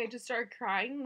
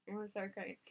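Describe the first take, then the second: First: Said in the usual way. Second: Laughing through the words, softer; breaking into a laugh as she says it. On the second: Real, not acted. New mom laughing while telling her birth story.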